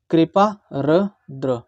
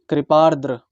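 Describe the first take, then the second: First: कृपा र द्र broken into slow parts; syllable by syllable. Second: कृपार्द्र said as one smooth word; joined word. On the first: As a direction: spell out कृपा र द्र slowly. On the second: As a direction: blend कृपार्द्र together. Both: Shown as a demonstration. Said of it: "अब इसको क्या बोलेंगे".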